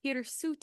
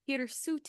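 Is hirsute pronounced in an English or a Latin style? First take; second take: Latin; Latin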